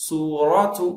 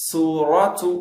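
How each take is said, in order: Both takes have the same delivery.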